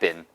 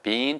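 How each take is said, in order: First: The vowel in the word is short. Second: The vowel in the word is long. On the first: "미국식 발음은 짧게" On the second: "영국 사람들은 약간 더 길게 발음하는 경우도 있습니다"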